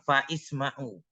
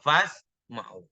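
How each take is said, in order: First: A glottal stop and an i come after fa. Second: Fa runs straight into sma'u with no stop. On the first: The speaker calls it wrong. "Kita nggak boleh bilang fa'isma'u" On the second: The speaker calls it right. "Langsung fasma'u"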